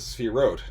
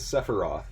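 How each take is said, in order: First: The opening s runs straight into the next consonant. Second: A vowel separates the opening s from the next consonant. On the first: "This is the proper Hebrew pronunciation of the word" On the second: "not as sephiroth"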